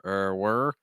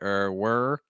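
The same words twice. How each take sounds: No difference in how they are said.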